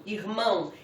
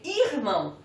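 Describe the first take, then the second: First: Said in the usual way. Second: "irmão" said as ÍR-mão, first syllable stressed. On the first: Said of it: "Esse ão deixa a última sílaba mais forte". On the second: Shown as a demonstration. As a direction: hit the IR of "irmão", let "mão" fall away. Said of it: "teria que ter um acento para eu chamá-la de paroxítona".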